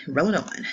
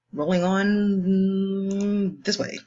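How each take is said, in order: First: Said in the usual way. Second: Sung, slow, high, drawn-out singsong; sung, sing-song. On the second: Pretend. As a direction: croon it like a little tune. Teacher moves to next problem.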